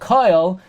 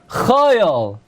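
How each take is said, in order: First: The word begins with a hard k sound. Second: The word begins with a soft, throaty ch sound. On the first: The letter keeps its dagesh. "where it's Bakoil Mi Koil Koil" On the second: The letter has lost its dagesh after a vowel. "the correct way to say it in benching is"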